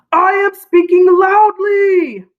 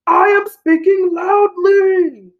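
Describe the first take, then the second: First: Loud, high, slow demo line; teacher modelling a loud voice for kids; speaking loudly. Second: Loud, high, slow demo line; loud model sentence repeated for class; speaking loudly. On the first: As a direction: belt it out big and slow. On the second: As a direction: call it out big and slow. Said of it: "Say that just like me". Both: Shown as a demonstration.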